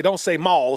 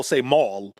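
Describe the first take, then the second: First: "mall" said higher, the country way; country way of saying "mall". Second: "mall" as the plainer, less country correction; city way of saying "mall". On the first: Cousin quoting the word to avoid, country "mall". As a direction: stress "mall" with a Southern drawl. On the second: Cousin correcting a country boy, city-style "mall". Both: Retold or imitated.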